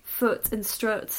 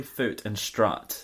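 First: FOOT and STRUT both with the 'oo' of foot; northern foot-strut merger. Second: FOOT with 'oo', STRUT with open 'uh'; different vowels. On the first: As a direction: slowly make strut rhyme with foot, northern style. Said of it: "in the north they would both be like". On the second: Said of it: "with different vowel sounds". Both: Shown as a demonstration.

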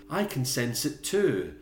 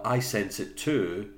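First: Higher, slow mock séance voice; Helen. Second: Slow, drawn-out séance line; Helen. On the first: Co-host mocking Helen at the séance, slow put-on voice. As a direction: draw it out, hammed-up acting. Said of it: "Helen was like". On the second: Retold or imitated. Co-host recalling Helen's séance line, slow light imitation. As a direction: stretch it out, lightly acted. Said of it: "it was Helen".

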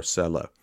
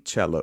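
First: "Cella" said as SELL-a; s pronunciation. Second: "Cella" said as CHEL-la; ch pronunciation. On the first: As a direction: start "Cella" with a soft s sound. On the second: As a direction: start "Cella" with a ch sound. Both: Real, not acted. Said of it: "unless it's Cella".

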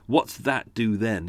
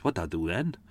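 First: Said in the usual way. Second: Run-together South Wales phrase, rising at the end; soft South Wales lilt; South Wales accent. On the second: Shown as a demonstration. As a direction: say it quickly with a Cardiff lilt. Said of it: "South Wales thing".

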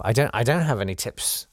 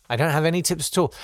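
First: Said in the usual way. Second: "I don't have any tips at all" rattled off fast and higher; fast higher throwaway repeat; quick emphatic repeat. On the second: Real, not acted. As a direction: hurry it out with a shrug. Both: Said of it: "repeats his answer".

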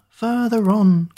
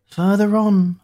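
First: Slow, higher, louder call, punching "further"; drawn-out call. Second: Higher, louder call, leaning on "on". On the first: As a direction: stretch "further on", hitting "further" hard. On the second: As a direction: call "Further on" ahead, landing on "on". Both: Acted. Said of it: "cried Hoodoo".

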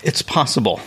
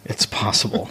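First: Said in the usual way. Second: Whispered aside. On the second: Acted. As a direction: whisper it, coy. Coy evasive answer, then repeated.

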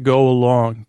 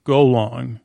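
First: "go along" as three syllables, go-a-long, the wrong version. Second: "Golong" in two syllables, go-long, no a in the middle; right Golong. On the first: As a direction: say "go along" with the extra middle syllable a. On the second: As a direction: say "Golong" as go plus long, nothing between. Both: Shown as a demonstration. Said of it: "no, no, not go along".

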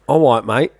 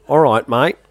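First: "All right" said as "awwight" in London accent; London accent, W sound in "right". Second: "All right" with a clear R, Australian; Australian accent, R in "right". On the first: Demonstrating the example word, London accent. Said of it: "confused between Australian and London accent". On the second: Swapping W for R, Australian accent. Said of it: "change out that W for an R". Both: Shown as a demonstration.

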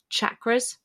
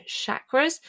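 First: "chakras" begun with CH, as in "chocolate"; hard CH pronunciation. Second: "chakras" begun with SH, as in "shack"; soft SH pronunciation. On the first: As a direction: say "chakras" as CHAK-ruhz. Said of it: "heard lots of people call them". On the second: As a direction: say "chakras" as SHAK-ruhz. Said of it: "I've always called them chakras". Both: Shown as a demonstration.

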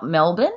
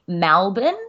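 First: Said in the usual way. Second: "Melbourne" said as "Malbun"; Melbournian "Melbourne". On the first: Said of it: "not Melbourne". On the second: Shown as a demonstration. Telling her co-host how Melbournians say it, "Malbun". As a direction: open the first vowel of "Melbourne" to an a. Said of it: "Melbournians say Melbourne".

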